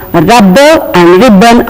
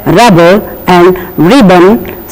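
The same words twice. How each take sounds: First: "rubber and ribbon" with a stressed, doubled B; wrong doubled-B pronunciation. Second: "rubber and ribbon" with one light B; don't stress the double B in "rubber and ribbon"; correct single-B pronunciation. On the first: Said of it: "are wrong pronunciations". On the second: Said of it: "We have to say it as". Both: Shown as a demonstration.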